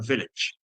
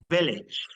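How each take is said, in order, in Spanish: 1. La segunda vocal es una schwa débil. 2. La segunda vocal es una i clara y breve.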